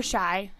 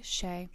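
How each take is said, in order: First: Shy with an eye sound, rhyming with sky; name said Shy. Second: Shay with a long ay sound, rhyming with day; name said Shay. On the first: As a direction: say Shy like the word shy. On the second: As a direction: say Shay like the word say. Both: Real, not acted. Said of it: "It's kinda really however you pronounce it".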